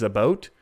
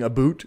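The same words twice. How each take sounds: First: Said in the usual way. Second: "a boot" with a long oo vowel; Canadian "aboot". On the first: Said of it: "a boot versus about". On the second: Shown as a demonstration. Streamer showing the difference to chat, "a boot" with oo. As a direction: say about as "a boot", rhyming with suit. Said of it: "the difference when I'm saying".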